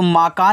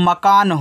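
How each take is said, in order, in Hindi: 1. पहला स्वर दीर्घ है। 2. पहला स्वर ह्रस्व है। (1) "माकान नहीं" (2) "मकान होता है"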